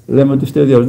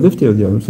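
First: Said in the usual way. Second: Δεν set apart, pitched low and firm; stress on δεν. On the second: Shown as a demonstration. Preacher correcting the flock, δεν firmly stressed. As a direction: press on the word δεν to deny it.

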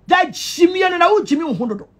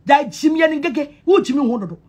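First: Shouting. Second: Said in the usual way. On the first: Real, not acted. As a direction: shout it out at them. Shouted insult.

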